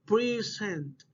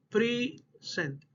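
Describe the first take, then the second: First: "Present" with stress up front, second syllable dropping; stress on first syllable. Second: "present" split in two, first syllable stressed, short gap, second falling; stress, syllables separated. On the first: Teacher repeating the stress example, "Present" stressed on first syllable. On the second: Teacher breaking down the example, "present" syllable by syllable, stressed first. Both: Shown as a demonstration. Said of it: "in the first syllable".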